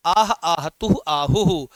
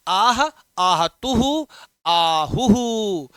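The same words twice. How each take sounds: First: Said in the usual way. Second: आह आहतुहु आहुहु stretched out very slowly, syllable by syllable; slow drawn-out recitation. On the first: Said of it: "यहाँ आह है". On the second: Shown as a demonstration. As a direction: sound out आह, आहतुहु, आहुहु slowly for the students, like a groan. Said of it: "जब कोई मार आह कराहते हैं ना आह".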